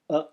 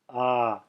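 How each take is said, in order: First: The vowel is held only briefly. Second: The vowel is held noticeably longer. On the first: "the short version" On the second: "then the long version"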